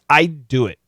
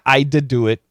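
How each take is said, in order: First: The D is held as a stop, unreleased. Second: The D is fully released, like an extra syllable. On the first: The speaker calls it right. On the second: The speaker calls it wrong. "It's not"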